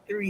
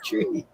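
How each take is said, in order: First: It begins with a soft th sound. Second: It begins with a hard t sound. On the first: The speaker calls it right. "it's three" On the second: The speaker calls it wrong. "It's not tree"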